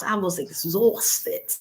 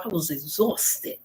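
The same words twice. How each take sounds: First: Heavy Bronx accent, very slow and drawn out; slow exaggerated Bronx delivery. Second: Light New York accent, slow and drawn; a hint of a New York drawl. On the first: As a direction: lean into a Bronx drawl. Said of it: "from the Bronx". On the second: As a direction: say it like a New Yorker, unhurried. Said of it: "like my brothers and sisters from New York". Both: Shown as a demonstration.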